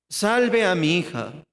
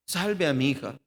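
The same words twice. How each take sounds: First: Pleading. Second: Said in the usual way. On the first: Shown as a demonstration. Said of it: "Está rogando". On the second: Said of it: "Este era el corazón de Jairo".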